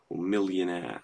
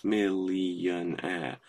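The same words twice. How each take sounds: First: Said in the usual way. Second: "millionaire" stretched into separate slow syllables. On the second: Shown as a demonstration. Teacher counting syllables in "millionaire", slowly separated syllables. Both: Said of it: "three or four syllables".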